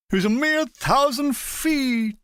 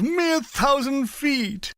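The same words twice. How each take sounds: First: Lightly drawled W C Fields voice, slow; a hint of W C Fields, slow and lazy; W C Fields impression. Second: Slow, higher W C Fields drawl; lazy W C Fields, stretched out; W C Fields impression. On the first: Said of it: "imitating W C Fields". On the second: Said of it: "I continued in the same voice".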